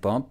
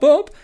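First: The name is said calmly at an even level. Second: The name is said louder and higher each time. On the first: The listener is being steadily reassured. The speaker calls it right. "keep calmly repeating it" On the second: Pressure is building on the listener. The speaker calls it wrong. "escalate your tone up, like modulate up"

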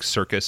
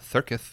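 First: The word is said with clear s sounds. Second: The word is said with a lisped s. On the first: "instead of saying circus" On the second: "the lisp, like the weird cut on circus"

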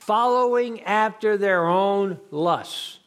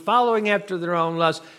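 First: The phrase is said slowly. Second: The phrase is said quickly.

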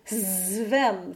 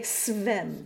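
First: The first sound is a buzzing voiced z. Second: The first sound is a hissing unvoiced s. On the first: The speaker calls it wrong. "it wouldn't go zvem there" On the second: The speaker calls it right. "It would stay svem"

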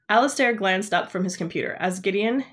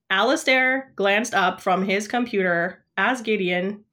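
First: The voice sounds like natural expressive reading. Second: The voice sounds flat and mechanical, like a robot.

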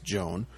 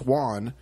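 First: The name is said as one syllable, 'Joan'. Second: The name is said as 'hwan', like Spanish Juan. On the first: The speaker calls it wrong. "to the North American ear, you would pronounce this Joan, but it's not" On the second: The speaker calls it right. "It's Juan"

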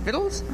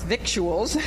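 First: The word is said with no 'k' sound. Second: The word is said with a 'k' sound. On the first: "Is that how you pronounce it? Vittles?" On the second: "I'm from the north. Victuals"

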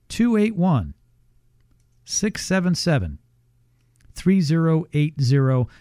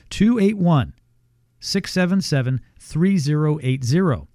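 First: It is read more slowly. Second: It is read at a normal pace.

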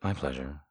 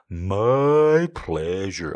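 First: It is said very quickly in a droopy voice. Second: It is said slowly in a droopy voice.

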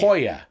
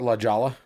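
First: The J is said like an H. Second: The J is said like an English J. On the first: The speaker calls it right. "It's La Jolla" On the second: The speaker calls it wrong. "I used to call it La Jala. Because I said it wrong"

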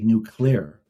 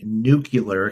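First: The word is said with two syllables. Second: The word is said with three syllables. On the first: The speaker calls it right. "it's supposed to be nuclear, it's two syllables, not three" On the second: The speaker calls it wrong. "the only person who's known and famous for saying nuclear"

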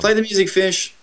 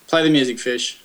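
First: It is said with more enthusiasm. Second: It is said flatly, without enthusiasm.

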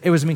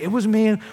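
First: It is said sheepishly and timidly. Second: It is said boldly and triumphantly.

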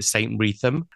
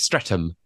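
First: The name is said in a posh way. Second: The name is said in a plain way. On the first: The speaker calls it wrong. "if you're posh, you call it" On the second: The speaker calls it right. "but it's Streatham"

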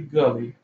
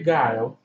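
First: The name is said as Gully. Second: The name is said as Guile. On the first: This is an older, nonstandard pronunciation. "I say Gully" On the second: This is the usual pronunciation. "I don't say Guile"

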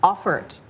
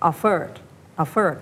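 First: The stress falls on the first syllable. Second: The stress falls on the second syllable. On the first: The speaker calls it right. "ไม่ใช่ฮะ, offered, stress ไปอย่างที่1 นะคะ" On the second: The speaker calls it wrong. "ตะกี้ได้ยินเป็น"

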